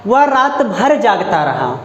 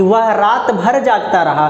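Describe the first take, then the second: First: Slow, weight on भर; stress on भर. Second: Slow, भर hit clearly; stress on भर. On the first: Teacher giving the example sentence, stress on भर. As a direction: linger on भर. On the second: Teacher repeating for students, stress on भर. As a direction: press भर. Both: Shown as a demonstration. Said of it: "भर शब्द पे पड़ रहा है".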